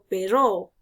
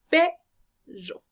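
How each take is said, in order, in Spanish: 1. El acento está en la segunda sílaba. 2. El acento está en la primera sílaba. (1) "no digo perro" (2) "sino perro. La sílaba tónica en esta palabra va a ser P"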